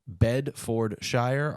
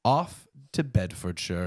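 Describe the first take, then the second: First: "Bedfordshire" spelled out slowly as Bed-ford-shire; three syllables. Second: Slow, careful "Off to Bedfordshire"; careful pronunciation. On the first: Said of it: "the three syllables". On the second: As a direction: try out "Bedfordshire" slowly, every syllable. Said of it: "I'm not sure that I'll say this right". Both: Shown as a demonstration.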